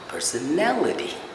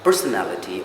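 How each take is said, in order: First: The stress is on the third-last syllable. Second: The stress is not on the third-last syllable. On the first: The speaker calls it right. "it's the third last syllable that needs to be stressed" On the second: The speaker calls it wrong. "It's not"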